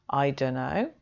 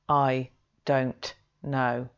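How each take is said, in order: First: The t of 'don't' is dropped, giving 'dunno'. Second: Every sound of 'don't know' is fully pronounced. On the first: The speaker calls it right. "missing out the t of the don't" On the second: The speaker calls it wrong. "they don't say"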